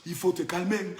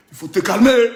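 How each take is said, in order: First: Low, soft and measured; hushed warning. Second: Sudden forceful burst; loud warning. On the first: Telling the rival to calm down, low and hushed. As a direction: say it softly, well down in pitch. Hushed take before loud one. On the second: Ordering the rival to calm down, suddenly loud. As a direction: belt out the warning. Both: Acted.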